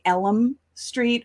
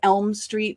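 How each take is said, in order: First: It is said in an old-fashioned way. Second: It is said in today's usual way. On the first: "they would pronounce words a little bit differently" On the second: "instead of"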